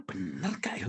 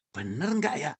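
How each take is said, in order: First: Lower, softer wondering aloud, "Bener gak ya" almost under the breath; "Bener gak ya" said low and soft, half to oneself; hushed doubt. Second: Said in the usual way. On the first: Retold or imitated. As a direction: ask yourself quietly, unsure. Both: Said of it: "Saya bilang".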